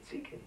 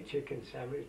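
First: Chicken with a t sound, tikken instead of ch; Greek diner's chicken. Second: Said in the usual way. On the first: Retold or imitated. Imitating how Greek customers order chicken. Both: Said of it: "they can't use the je, the stuff".

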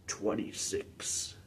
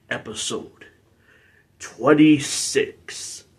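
First: Slow, whispered echo; hushed echo. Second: Slow, drawn-out number announcement; announced. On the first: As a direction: repeat it as a faint, drawn-out echo. Soft echo of own announcement. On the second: Announces episode number, then echoes it. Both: Acted.

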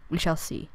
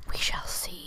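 First: Said in the usual way. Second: Whispered we shall see, no voice. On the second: Shown as a demonstration. To herself, planning the fort, a whisper. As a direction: breathe it out as a secret.

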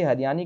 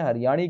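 First: हरियाणी with a dental 'n', like 'hariyani'; tongue on the teeth for the n in हरियाणी; dental N sound. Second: हरियाणी with a retroflex 'ṇ' in the last syllable; retroflex N sound. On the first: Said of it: "हरियाणी कहते हैं". (हरियाणी को दंत्य न से बोलना) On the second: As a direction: curl the tongue back for the ṇ in हरियाणी. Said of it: "कुछ लोग इसे हरियाणी कहते हैं". (हरियाणी को मूर्धन्य ण से बोलना) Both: Shown as a demonstration.

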